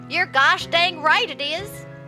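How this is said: It is said in a put-on Southern accent.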